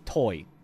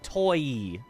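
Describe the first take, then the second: First: The vowel glides quickly, almost like one sound. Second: The two vowel sounds are drawn out and distinct. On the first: "saying it more naturally" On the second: "you can exaggerate the diphthong like toy"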